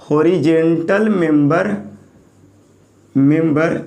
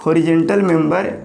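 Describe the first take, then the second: First: Each word spaced out for notes; teacher dictating slowly, word by word; slow dictation. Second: Said in the usual way. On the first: Shown as a demonstration. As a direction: spell it out slowly for the class to write. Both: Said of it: "horizontal member को बोलेंगे flange".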